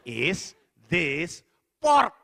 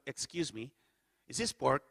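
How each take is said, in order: First: Very slow and loud, word by word; slow, over-careful repeat. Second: Low, softer polite query; polite cautious question. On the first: Diner repeats himself to uncomprehending hotel staff, slow and loud. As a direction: spell it out with long gaps between words. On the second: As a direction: ask discreetly, keep it low. First timid ask to staff. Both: Retold or imitated.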